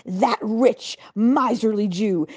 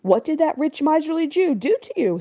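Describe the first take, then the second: First: A hint of a sneering governor, slow on miserly; lightly voiced governor naming his enemy; governor's scorn. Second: Higher, puzzled wife echoing his words; wife asking the governor what Segel did; wife's question. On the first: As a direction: spit out the insult with contempt. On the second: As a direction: echo the insult back as a question. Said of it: "his wife asked". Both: A narrator's reading.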